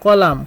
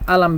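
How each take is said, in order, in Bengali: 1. এটি আদর্শ আরবিতে বলা হয়। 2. এটি মিশরের আঞ্চলিক আরবিতে বলা হয়।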